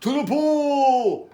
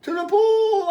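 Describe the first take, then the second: First: Drawn-out, high call; long, stretched-out shout of command; firemen's yell. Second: Very high, loud cry; high-pitched urgent yell; boy's yell. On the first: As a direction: yell it slowly like a rallying cry. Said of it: "yelled the firemen". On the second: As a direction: echo the call as an excited boy. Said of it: "I yelled". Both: A narrator's reading.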